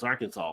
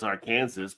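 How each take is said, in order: First: It ends with a saw sound. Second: It ends like the word Kansas. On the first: The speaker calls it right. "but like no, it's Arkansas" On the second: The speaker calls it wrong. "they think it's Arkansas ... it's just the A R in front of Kansas"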